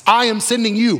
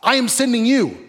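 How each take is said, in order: First: I am sending you, with I hit high and hard; the I in I am sending you stressed above the rest. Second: I am sending you, with you hit high and falling; the you in I am sending you pressed and held with a fall; stress on you. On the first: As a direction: lean on the word I, God's own choice. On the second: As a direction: point the word you straight at the listener. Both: Shown as a demonstration.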